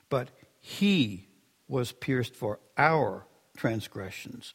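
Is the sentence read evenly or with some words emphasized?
emphasized. Certain words are given strong extra emphasis.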